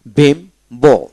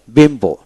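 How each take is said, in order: First: বিম্বো as bim, pause, bo; two separate beats in বিম্বো; split into syllables. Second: Said in the usual way. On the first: Shown as a demonstration. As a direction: break বিম্বো clearly after bim. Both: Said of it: "দুই syllable আলাদা হয়ে যাবে".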